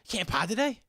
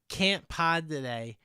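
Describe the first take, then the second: First: The voice rises at the end, as a question. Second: The voice falls at the end, as a statement.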